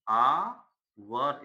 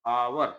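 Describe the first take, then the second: First: आवर drawn out very slowly in two pieces; teacher slowly sounding out आवर; syllable by syllable. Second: Said in the usual way. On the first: Shown as a demonstration. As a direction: hold the opening आ of आवर, then finish it. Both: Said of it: "इसका उच्चारण आ से शुरू".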